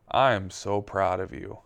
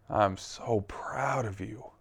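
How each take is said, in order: First: Said in the usual way. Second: Soft, slow, tender repeat; gentle voice of God. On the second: Retold or imitated. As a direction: say it softly and slowly, like a loving father.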